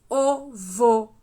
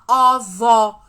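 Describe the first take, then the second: First: The first vowel is a closed o sound. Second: The first vowel is an open o sound. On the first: The speaker calls it right. "Nós falamos ovo, Pedro" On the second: The speaker calls it wrong. "A gente não fala ovo, Pedro. Nós não falamos assim"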